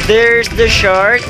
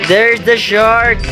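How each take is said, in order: Both takes have the same delivery.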